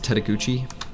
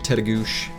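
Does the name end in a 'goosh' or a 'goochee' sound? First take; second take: goochee; goosh. First: The name ends with a longer 'goochee' sound. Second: The name ends with a short 'goosh' sound. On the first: The speaker calls it wrong. "which we always used to pronounce as Tetaguchi, until a park ranger corrected us" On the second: The speaker calls it right. "Head up to Tetagoosh"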